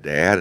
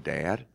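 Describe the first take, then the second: First: The word is said louder. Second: The word is said quietly.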